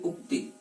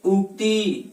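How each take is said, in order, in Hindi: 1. अंतिम स्वर छोटा रखा जाता है। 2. अंतिम स्वर लंबा खींचा जाता है। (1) "उक्ति ना होकर के उक्ति" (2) "दीर्घ बोल देते हैं"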